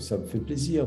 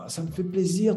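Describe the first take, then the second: First: The voice sounds flat and unenthusiastic. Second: The voice sounds warm and sincerely pleased. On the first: The speaker is not really glad to meet the person. The speaker calls it wrong. "un paraverbal euh, qui n'est pas approprié" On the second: The speaker is truly glad to meet the person. The speaker calls it right. "j'ai vraiment du plaisir à voir quelqu'un"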